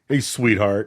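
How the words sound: It is said in a tone for an adult. It is said to a grown person, which is not fine. The speaker calls it wrong. "if I'm talking to another grown person"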